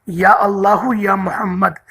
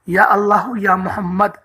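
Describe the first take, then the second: No difference in how they are said.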